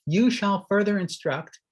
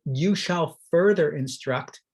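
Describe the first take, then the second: First: "You" lifted and pushed at the start; stress on you. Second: "further" carries the weight, "you" unstressed; stress on further. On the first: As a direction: lean into "You", then let it drop. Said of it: "emphasis on you here". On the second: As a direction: push "further" and let "you" stay light. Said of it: "to give that emphasis". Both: Shown as a demonstration.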